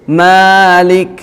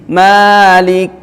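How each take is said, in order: Both takes have the same delivery.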